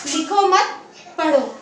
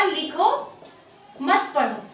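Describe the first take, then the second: First: Slow लिखो मत, a break, then पढ़ो; pause after मत. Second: लिखो left rising, long break, मत पढ़ो falling; pause after लिखो. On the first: Teacher reading out the moved comma, pause after मत. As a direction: stress मत with लिखो and set पढ़ो apart. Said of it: "हमने अल्प विराम को". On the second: Teacher reading out the first comma placement, pause after लिखो. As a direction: stop after लिखो, then group मत पढ़ो. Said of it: "अल्प विराम लगाया". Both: Shown as a demonstration.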